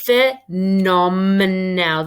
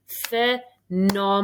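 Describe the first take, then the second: First: "Phenomenal" said very slowly and louder, each syllable pulled apart. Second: "Phenomenal" stretched out slowly; slow, deliberate "Phenomenal". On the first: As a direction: break "Phenomenal" into drawn-out syllables. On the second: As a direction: draw out "Phenomenal" syllable by syllable. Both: Shown as a demonstration. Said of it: "let's say that slowly".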